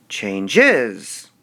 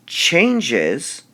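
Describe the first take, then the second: First: "changes" wrongly stressed on the ending, chan-GES; odd "changes" with the weight on -GES; stress on last syllable. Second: CHANGES with the CHANGE drawn out and punched; slow "changes", weight on CHANGE; stress on first syllable. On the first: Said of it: "would we emphasize the S". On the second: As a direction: hit the first syllable of "changes", let the end drop. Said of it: "Would we emphasize the change". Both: Shown as a demonstration.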